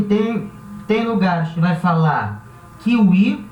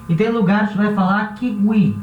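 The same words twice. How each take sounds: First: Kiwi said kiui. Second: Kiwi said kigui, faint g. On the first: Teacher giving one regional kiwi. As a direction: kiwi with a u sound for w. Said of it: "como se fosse um U". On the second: Teacher giving the other regional kiwi. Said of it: "como se fosse um G U". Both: Shown as a demonstration.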